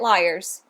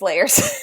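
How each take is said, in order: First: The name sounds like the word liars. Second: The name sounds like the word layers. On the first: The speaker calls it wrong. "I keep mispronouncing because apparently I can't read" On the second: The speaker calls it right. "It's Layers"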